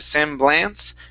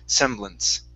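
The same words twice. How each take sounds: First: The last syllable has a full 'a' vowel. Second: The last syllable has a reduced schwa vowel. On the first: The speaker calls it wrong. "instead of semblance" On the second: The speaker calls it right. "a schwa or an I or a short short e"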